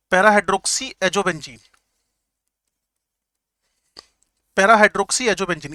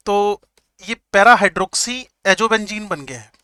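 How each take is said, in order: First: Para hydroxy azobenzyne said very slowly, each part stressed; slow repeated term. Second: Para hydroxy azobenzyne spelled out slowly, syllable by syllable; slow drilled term. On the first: Teacher repeats para hydroxy azobenzyne slowly for the class. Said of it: "teacher repeats the name". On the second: Teacher slowly drills para hydroxy azobenzyne for the class. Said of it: "teacher drills the name". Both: Shown as a demonstration.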